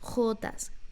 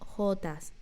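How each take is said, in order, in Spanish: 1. La j es un sonido fuerte y áspero de garganta. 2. La j es un sonido débil, suave y aspirado. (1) "Pronuncia bien las jotas" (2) "no jotas"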